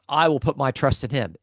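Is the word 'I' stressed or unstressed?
unstressed. The word I is said without stress. The speaker calls it wrong. "So it's not"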